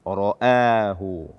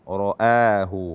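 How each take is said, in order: The two takes are said the same way.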